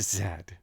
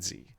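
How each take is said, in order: First: The letter is pronounced zed, ending in d. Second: The letter is pronounced zee, ending in a vowel. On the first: The speaker calls it right. "You got to pronounce it the proper way" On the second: The speaker calls it wrong. "It's not Z"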